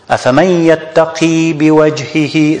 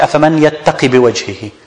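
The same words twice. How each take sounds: First: The last vowel of yattaqi is held long. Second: The last vowel of yattaqi is cut short. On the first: The speaker calls it right. "So you have to extend it" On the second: The speaker calls it wrong. "We don't say"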